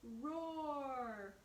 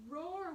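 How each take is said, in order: First: Said in the usual way. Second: A higher, louder roar; bear roar. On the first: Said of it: "Bear began to roar". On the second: Acted. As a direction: roar it out like a proud little bear. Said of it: "went the noisy bear".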